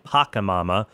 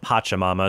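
First: The second syllable starts with a k sound. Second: The second syllable starts with a ch sound. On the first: The speaker calls it wrong. "I was saying Pacamama" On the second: The speaker calls it right. "it turns out it's pronounced Pachamama"

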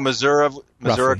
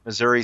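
First: It uses the countryside pronunciation of the name. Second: It uses the city pronunciation of the name. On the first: The speaker is from the country. "Missouri country" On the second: The speaker is from the city. "Missouri city"

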